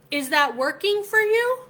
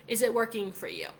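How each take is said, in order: First: Higher, louder, pointed rising question; loud challenge. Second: Said in the usual way. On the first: Retold or imitated. Pressing the coworker about skipping the party, loud and incredulous. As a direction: call him out, loud and incredulous.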